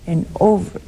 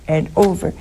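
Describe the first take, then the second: No difference in how they are said.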